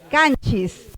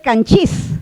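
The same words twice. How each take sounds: First: The stress is on the first syllable. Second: The stress is on the second syllable. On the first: This is how the word is actually said. The speaker calls it right. "Pero no es canchis, es canchis" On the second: This is what the stress rule predicts. The speaker calls it wrong. "Debería de jalar el acento, debería ser canchis"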